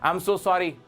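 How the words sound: It is said harshly, like a scolding. The speaker seems to be scolding someone. The speaker calls it wrong. "भाई डांट रहा है या उसको sorry बोल रहा है? तो इस तरह नहीं बोलना"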